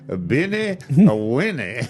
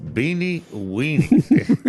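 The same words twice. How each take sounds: First: Put-on "A Beanie, a Winnie" in a French accent, high on "Beanie". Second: "Beanie Weenies" stretched slow and high in a plain American voice; drawn-out American. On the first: Host imitating the French chef saying it on TV, French accent. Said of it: "gonna sound better with a French accent". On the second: Retold or imitated. Host teasing the chef on TV, slow drawn-out American. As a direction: hold out "Beanie Weenies?" as a long teasing question. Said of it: "'cause it's gonna sound better with a French accent".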